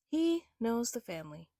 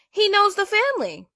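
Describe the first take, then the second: First: Said in the usual way. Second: Loud, high burst on "knows"; blurted-out anger at "knows"; indignant outburst. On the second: Real, not acted. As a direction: shout "he knows the family" in disbelief.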